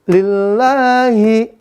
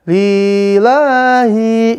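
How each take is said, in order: First: The first and last vowels are kept short. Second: The first and last vowels are drawn out long. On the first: The speaker calls it right. "Li dan hi ini dia pendek" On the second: The speaker calls it wrong. "jangan dibaca pan panjang. Jangan sampai dibaca lillahi, jangan ya"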